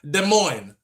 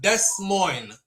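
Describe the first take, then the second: First: The final S sound is left silent. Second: The final S sound is pronounced aloud. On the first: The speaker calls it right. "the S is silent" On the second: The speaker calls it wrong. "not Des Moines"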